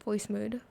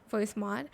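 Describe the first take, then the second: First: "mood" said with a long oo, like the word mood; the mistaken "voice mood", with "mood" rhyming with food; wrong pronunciation. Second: "mod" said short, rhyming with god; the correct "voice mod", with "mod" short, not "mood"; right pronunciation. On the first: Correcting himself on the app name, first saying "mood" with a long oo. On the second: Correcting himself on the app name, saying "mod" short and clearly. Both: Shown as a demonstration. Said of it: "not voice mood".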